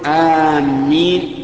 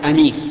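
First: The first vowel is long and the m is doubled. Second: The first vowel is short and the m is single. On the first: It means people heading toward a place. "وكذلك أيضا آمين لا يصح، لأن آمين بمعنى قاصدين" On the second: It is an adjective meaning safe or trustworthy. "ولا يصح أن تقول أمين، لأن أمين صفة مشبهة من الأمن"

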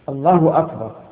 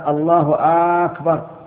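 First: No vowel in the phrase is drawn out. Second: The hamza of the second word is drawn out. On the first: The speaker calls it right. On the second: The speaker calls it wrong.

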